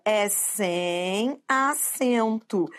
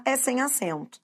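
First: "É sem acento" very slow, stretching "sem"; drawn-out emphasis. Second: Said in the usual way. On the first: Shown as a demonstration. Teacher driving the rule home to students, slow emphasis. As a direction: spell out "É sem acento" word by word. Teacher stresses the rule's result.

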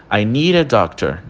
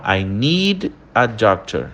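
First: "need a" linked as "nee-ra"; R de ligação. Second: Slower "I need a doctor", "need" held with a clear D; pausado. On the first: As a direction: turn the D of "need" into a quick R running into "a". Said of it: "entra um R entre o need e o a". ("need a" junto, soando como "nira") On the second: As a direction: keep "need" and "a" apart. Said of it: "quando a gente fala essa frase pausada". (pausado, com o D de "need" bem claro) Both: Shown as a demonstration.

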